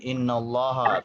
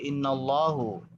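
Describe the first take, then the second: First: The word ends with an 'a' vowel. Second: The word ends with a 'u' vowel. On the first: The speaker calls it right. "Sama dengan innallaha" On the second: The speaker calls it wrong. "tidak boleh innallahu"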